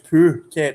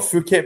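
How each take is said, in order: First: The first syllable sounds like poo. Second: The first syllable does not sound like poo. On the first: The speaker calls it right. "That's how you say it. Phu, as in Jobby" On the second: The speaker calls it wrong. "It's not Phuket"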